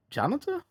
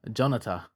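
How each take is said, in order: First: Jonata? with a sharp high rising question tune; puzzled question. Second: Said in the usual way. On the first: Shown as a demonstration. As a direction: ask Jonata? as if unsure of the name, pitch jumping up high. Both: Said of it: "Keep calling him Jonathan".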